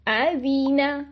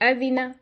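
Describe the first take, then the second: First: The short vowel is stretched long. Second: The short vowel is clipped abruptly short. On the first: "तो ये मैं उनको खींच रही हूं" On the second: "हम इसको एक्स्ट्रा छोटा कर देते हैं"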